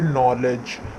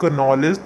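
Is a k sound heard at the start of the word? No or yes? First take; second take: no; yes. First: The word starts without a k sound. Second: The word starts with a k sound. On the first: The speaker calls it right. "नॉलेज में के silent होता है" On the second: The speaker calls it wrong. "उसे हम नॉलेज तो नहीं पढ़ते हैं"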